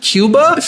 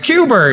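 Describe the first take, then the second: First: High rising "Cuba?" with the usual open ending; puzzled question. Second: High, insistent "Cuba" said as "Cuber"; grandma's added R. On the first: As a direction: check the word "Cuba" in a baffled high pitch. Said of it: "And like". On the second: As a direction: mimic grandma putting an R on the end of "Cuba". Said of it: "she'd be like". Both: Retold or imitated.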